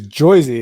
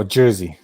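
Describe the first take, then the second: First: "Jersey" with an oy vowel; "Jersey" turned into Joisey; dialect pronunciation. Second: "Jersey" with a plain er vowel; "Jersey" with er, not oy; standard pronunciation. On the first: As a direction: say "Jersey" as JOY-zee. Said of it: "is what I'm used to". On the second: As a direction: correct it to "Jersey" as JUR-zee. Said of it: "No, Jersey". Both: Shown as a demonstration.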